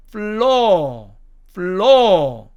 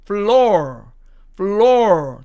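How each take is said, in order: First: FLOOR as "flaw", no r; British floor. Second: FLOOR with a sounded final r; American floor. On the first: Teacher showing British pronunciation, FLOOR without r. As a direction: hold the open vowel of FLOOR and drop the r. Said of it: "R자가 사라지기 때문에". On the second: Teacher showing American pronunciation, FLOOR with clear r. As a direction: end FLOOR on a curled r. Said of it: "미국식 발음으로 하면". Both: Shown as a demonstration.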